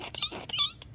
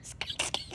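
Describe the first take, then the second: First: Very high soft squeaks; mouse squeak. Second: Whispered mouse squeaks. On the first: Child playing mouse, high soft squeaks. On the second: Child whispering mouse squeaks. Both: Pretend.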